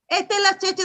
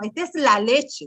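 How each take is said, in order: First: The last word starts with a ch sound. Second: The last word starts with an l sound. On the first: It is baby talk. The speaker calls it wrong. "yo no le puedo decir" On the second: It is the word as properly pronounced. The speaker calls it right. "hay que decirle las palabras tal cual como se pronuncian"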